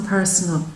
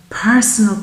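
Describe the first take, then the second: First: "personal" repeated much softer, falling away; soft echo. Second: "Personal" said firmly with a falling end; stressed word. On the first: Reader echoing her own word to Libra, softly. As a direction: echo "personal" under your breath. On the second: Reader stressing the point to Libra, firm. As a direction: land "Personal" as the key word. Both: Shown as a demonstration. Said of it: "I don't just mean a bouquet of flowers".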